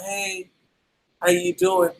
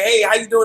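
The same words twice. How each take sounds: First: It is said with low, flat energy. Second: It is said with high, lively energy.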